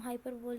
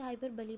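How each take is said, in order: First: "हाइपरबोल" ending on the L, no final ee; wrong pronunciation demo. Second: "हाइपरबोली" with a final lee syllable; correct pronunciation demo. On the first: Teacher showing students the reading to avoid, "हाइपरबोल" said without final ee. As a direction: say "हाइपरबोल" as hyper-bowl, ending in L. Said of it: "हाइपरबोल नहीं पढ़ते हैं". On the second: Teacher showing students how it is read, "हाइपरबोली" ending in a sounded ee. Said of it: "हम इसे हाइपरबोली पढ़ते हैं". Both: Shown as a demonstration.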